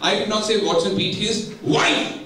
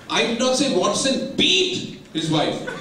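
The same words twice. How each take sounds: First: The word wife is stressed. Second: The word beat is stressed. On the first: He beat some other person close to him. "He might have beaten his girlfriend, he might have beaten his sister" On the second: He did something else to her, not beat her. "He might have done something else, but he did not"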